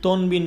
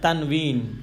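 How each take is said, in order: First: The first vowel sounds like 'o'. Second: The first vowel sounds like 'a'. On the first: The speaker calls it wrong. "তনবিন বলবেন না" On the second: The speaker calls it right.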